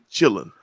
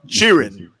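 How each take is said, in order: First: The word sounds like chilling, with no r. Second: The word sounds like cheering, with an r. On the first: The speaker is from Texas or nearby states. "Texas, Louisiana, Arkansas, Oklahoma, parts of Kansas. We say chilling" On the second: The speaker is from Mississippi or Georgia. "Then you get down to Mississippi and uh, parts of Georgia"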